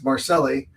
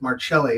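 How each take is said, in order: First: The name is said in a Californian way. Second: The name is said in an Italian way. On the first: This is how the family says it at home. "you pronounced her name correctly. It's Marcelli" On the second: This is how it must be said in New York. "if we go to New York... we have to pronounce it Marcelli"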